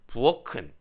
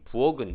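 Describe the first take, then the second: First: The middle consonant is an aspirated k. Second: The middle consonant is a plain unaspirated k. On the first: The speaker calls it right. "그래서 부어키, 부어큰 이렇게 발음해야 돼요" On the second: The speaker calls it wrong. "실생활에서 부억이 부억은 이렇게 발음하거든요. 저도 잘못 발음하는 거겠죠"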